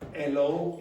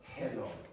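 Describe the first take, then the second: First: The word starts without an h sound. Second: The word starts with a clear h sound. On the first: The speaker calls it wrong. "L O instead of hello" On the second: The speaker calls it right. "instead of hello"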